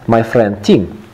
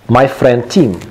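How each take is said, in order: Both takes have the same delivery.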